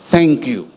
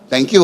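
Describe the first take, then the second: First: It is said warmly, with sincere feeling. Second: It is said casually, almost automatically. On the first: The thanks comes from the heart. The speaker calls it right. "iba talaga yung mula sa puso" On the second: The thanks is said out of habit. The speaker calls it wrong. "Parang binibigkas na lang natin"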